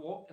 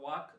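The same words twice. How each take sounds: First: "വോക്ക്" with o instead of aa, silent l; correct o vowel. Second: "വാക്ക്" with aa in place of o; mispronounced with a vowel. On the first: Teacher correcting the mistake for students, "വോക്ക്" with long o. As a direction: say "വോക്ക്" with a long rounded o, like wohk. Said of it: "വോക്ക് എന്ന് pronounce ചെയ്യണം". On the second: Teacher warning students off a mistake, "വാക്ക്" with open aa. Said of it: "വാക്ക് എന്ന് pronounce ചെയ്യരുത്". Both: Shown as a demonstration.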